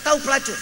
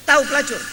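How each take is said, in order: Both takes have the same delivery.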